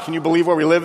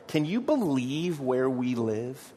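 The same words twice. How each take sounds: First: It is said with an annoyed, complaining tone. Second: It is said with delighted, grateful wonder. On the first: The place is frustrating to live in. "oh my gosh, ... This is ridiculous" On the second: The place is wonderful to live in. "That's a good thing"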